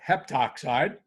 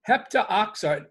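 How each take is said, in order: First: No 'a' vowel is said before 'oxide'. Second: An 'a' vowel is said before 'oxide'. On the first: The speaker calls it right. "Heptoxide sounds a little more natural" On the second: The speaker calls it wrong. "it makes it sound unnatural"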